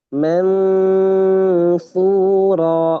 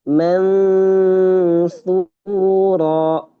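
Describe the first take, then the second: No difference in how they are said.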